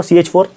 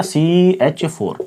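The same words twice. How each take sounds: First: Said in the usual way. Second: CH four drawn out slowly, each syllable spelled out; slow drilled answer. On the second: Shown as a demonstration. Teacher drills the formula for students, slow and deliberate. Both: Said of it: "क्या formula?".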